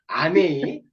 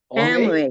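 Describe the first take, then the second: First: It is said with a Korean accent. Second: It is said with an American accent.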